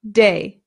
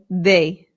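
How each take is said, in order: First: The D is hard, English-style. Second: The D is soft, tongue behind teeth. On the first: "An English person would say" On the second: "a Spanish person would say"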